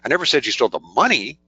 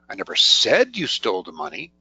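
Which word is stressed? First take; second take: money; said. First: The word "money" is stressed. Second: The word "said" is stressed. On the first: Something other than money might have been stolen. "Implies maybe you stole something else" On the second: It might have been written rather than said. "That implies I might have written about it"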